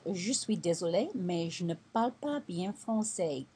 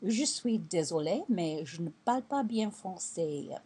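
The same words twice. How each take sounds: First: Je suis désolé rising, pas bien français falling; French phrase. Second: Je suis désolé, mais je ne parle pas bien français repeated clearly; French phrase. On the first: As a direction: model the apology in French. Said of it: "Something else I used to say is". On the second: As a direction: recap the French apology. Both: Shown as a demonstration.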